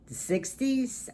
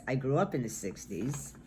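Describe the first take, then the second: First: Excited. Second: Said in the usual way. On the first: Real, not acted. Fond answer: favorite decade.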